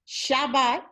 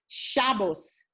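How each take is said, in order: First: It ends with a T sound, Sephardic style. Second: It ends with an S sound, Ashkenazi style.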